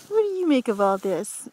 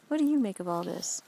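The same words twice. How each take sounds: First: The same question again, louder, to the pet; louder playful call. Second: Said in the usual way. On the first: Real, not acted. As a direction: call it out brightly to the little dude. Mom asks the pet twice.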